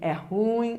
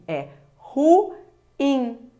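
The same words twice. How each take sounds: First: Ruim is said as a single syllable. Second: Ruim is said as two separate syllables. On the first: The speaker calls it wrong. "Muitas pessoas pronunciam de maneira equivocada" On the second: The speaker calls it right. "Essa é a forma correta"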